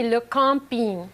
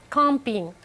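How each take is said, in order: First: "le camping" said slowly, French style, nasal "cam" and ending "ping". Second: "Camping" on its own, French nasal "cam" and a falling end. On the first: Teacher showing radio listeners the French "le camping", slow and nasal. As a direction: drawl out "le camping" the French way, nasal first syllable. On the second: Teacher repeating the French "Camping" for listeners, nasal and falling. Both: Shown as a demonstration. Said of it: "Look at that French word".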